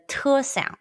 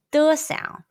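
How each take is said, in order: First: "te" with more air pushed out; aspirated t. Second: "de" with hardly any air released; unaspirated d. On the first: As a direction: release the t of "te" with a puff of breath. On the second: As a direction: say "de" without a puff of breath. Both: Shown as a demonstration. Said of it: "You need to push more air out".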